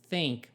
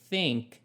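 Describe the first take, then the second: The two takes are said the same way.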